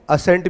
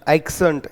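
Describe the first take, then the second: First: The word has no k sound before the s. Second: The word has a k sound before the s. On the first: "कुछ लोग इसको एसेंट भी पढ़ते होंगे" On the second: "ये मैं बार बार एक्सेंट एक्सेंट इस तरह से बोल रहा हूं"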